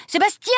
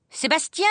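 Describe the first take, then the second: First: Much higher, louder second shriek of the name; yelling for the valet. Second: First call, high; yelling for the valet. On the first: Governess yelling for the valet a second time, higher and louder. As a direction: scream the name at its peak. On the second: Governess calling the valet as kittens escape, high call. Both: A narrator's reading. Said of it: "hurla mademoiselle Rottenmeier".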